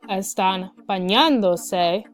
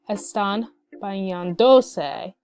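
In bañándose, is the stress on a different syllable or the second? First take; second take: second; different. First: The stress falls on the second syllable. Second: The stress falls away from the second syllable. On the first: The speaker calls it right. "with the accent correction" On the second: The speaker calls it wrong.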